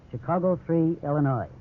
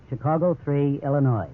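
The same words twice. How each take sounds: The two takes are said the same way.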